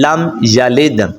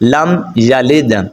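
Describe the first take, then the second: Both takes have the same delivery.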